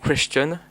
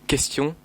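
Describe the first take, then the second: First: It is pronounced without the French sound pattern. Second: It is pronounced with the French sound pattern. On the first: The speaker calls it wrong. "When you say question" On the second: The speaker calls it right. "you have to say question in French"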